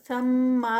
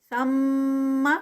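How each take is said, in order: First: ثم with the last vowel stretched long; wrong reading. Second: ثم with a short final vowel and a nasal hum on the میم; correct reading. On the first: Teacher demonstrates the wrong long ending of ثم. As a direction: show the error: ثم with a drawn-out final vowel. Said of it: "نہیں ہے یہ". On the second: Teacher models the correct short ثم for students. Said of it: "آخری حرکت لمبی نہیں ہوگی". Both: Shown as a demonstration.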